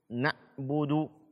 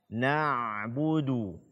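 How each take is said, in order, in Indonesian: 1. Bunyi ain terputus. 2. Bunyi ain terus mengalir. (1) "Ini tidak dibenarkan" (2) "ketika dia sukun suara masih tetap mengalir"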